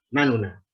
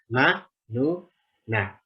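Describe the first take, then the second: First: It is said at normal speed as one word. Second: It is said slowly, one syllable at a time.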